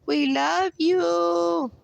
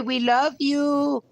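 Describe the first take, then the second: First: Sung, higher still, very slow; sung, stretch it out like a lullaby to the dog; drawn-out tender croon; doting crooning. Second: Slow sing-song love to the dog; doting pet talk. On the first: Tender words to dog repeated. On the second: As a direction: croon it to the dog. Tender words to dog. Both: Real, not acted.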